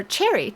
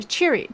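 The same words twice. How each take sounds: First: "Cherry" with a short e, as in berry; mispronounced name. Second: "Cheery" with a long ee; corrected name. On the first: Recapper slips on the dwarf's name, saying "Cherry" with short e. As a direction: say "Cherry" to rhyme with merry. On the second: Recapper corrects the dwarf's name, saying "Cheery" with long ee. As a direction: say "Cheery" to rhyme with weary. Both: Real, not acted. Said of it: "or sorry, Cheery".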